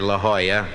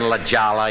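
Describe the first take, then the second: First: The J is said like an H. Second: The J is said like an English J. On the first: The speaker calls it right. "you say La Jolla" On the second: The speaker calls it wrong. "Instead of saying La Jolla, you know, and people cringe"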